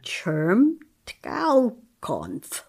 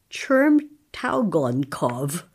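First: Chermtaukonf said very slow, clipped into fewer syllables; retry it as Chermtaukonf, very drawn out; second reading. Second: Chermtaugonkov read very slowly, first try. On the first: At the host's request, saying the name again very slowly. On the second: Host asks for it again after the first slow try. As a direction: stretch out Chermtaugonkov syllable by syllable. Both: Shown as a demonstration. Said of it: "you pronounce that name again?".

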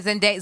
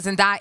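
First: Zendaya, middle syllable rhyming with "say"; Zendaya with DAY. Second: Zendaya, middle syllable rhyming with "eye"; Zendaya with DIE. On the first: Host unsure of the actress's name, Zendaya said "zen-DAY-a". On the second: Host trying the other version, Zendaya said "zen-DIE-a". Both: Shown as a demonstration. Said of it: "Is it Zendaya or Zendaya?".

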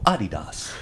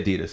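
First: Adidas as AH-dee-dahs, stress on the middle, open vowels; Adidas ausgesprochen auf Deutsch; German pronunciation. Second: Adidas as uh-DEE-dus, stress on the second syllable; plain American Adidas; American pronunciation. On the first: Retold or imitated. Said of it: "the European German pronunciation". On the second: Shown as a demonstration. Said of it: "We say Adidas here in America".

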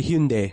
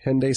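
First: Hyundai said HYOON-day; Hyundai with a "hyoon" start and falling end; corrected Hyundai. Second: Hyundai said as HEN-day; first syllable like "hen", then "day"; Hyundai with a short "hen" opening; Americanized Hyundai. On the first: Shown as a demonstration. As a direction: glide in "hyoon", then "day". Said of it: "It's actually Hyundai". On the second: Real, not acted. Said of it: "I don't think that's how you say it".

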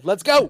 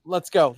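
First: Louder, higher second cheer; hyped cheer. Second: Said in the usual way. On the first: Real, not acted. Co-host urges the reader into his accent, hyped cheer. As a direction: egg him on, raising the volume and pitch.

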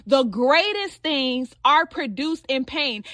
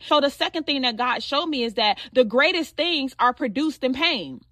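First: "The greatest things are produced in pain" said slowly, each word weighted; slow it down and lean on "produced in pain"; slow emphatic repeat. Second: Said in the usual way. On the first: Shown as a demonstration.

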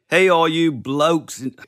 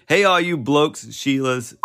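First: A put-on Aussie greeting that slips toward Cockney; loud mock Aussie hello, a touch higher; botched Australian accent that sounds like Oliver Twist; Australian accent attempt. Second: A slightly louder put-on Aussie greeting; second try at a shouted Aussie hello; yelled Australian accent. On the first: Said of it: "That sounded like Oliver Twist". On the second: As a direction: call out "Hey, all you blokes and Sheilas" in a mock Aussie voice. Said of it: "Yeah, yelling".

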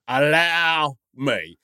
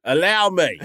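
First: Very slow, stretched-out ALLOW ME; mock-gallant host, savour each word of "allow me"; hammed-up offer to take charge, dragged right out; drawn-out grand insistence. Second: Grand host insistence. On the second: Acted. Playing the self-appointed host.

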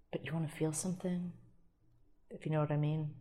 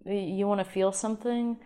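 First: Soft, suggestive and hushed; suggestive innuendo. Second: Said in the usual way. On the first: Acted. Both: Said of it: "I'm already, like, innuendoing".

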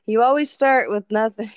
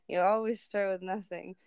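First: Loud, insistent retort. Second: Said in the usual way. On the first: Retold or imitated. Mom insisting on zero to her daughter, loud and emphatic. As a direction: drive the point home loudly.

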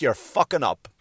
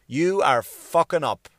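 First: Said in the usual way. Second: YOU ARE drawn out, each word weighted; slow emphatic repeat. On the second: Real, not acted. Comic scolding New York, slow emphatic repeat. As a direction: spell it out slowly, leaning on every word of "You are fucking up".

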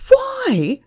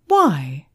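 First: Very high, loud outraged shout; shouted, incredulous. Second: Said in the usual way. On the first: A narrator's reading. Manager echoing Emma's question, outraged shout. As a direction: throw the question back in a shout. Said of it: "the manager shouted". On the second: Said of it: "she asked".

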